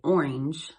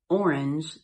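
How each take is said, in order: First: It is said in an old regional pronunciation. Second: It is said in a standard pronunciation.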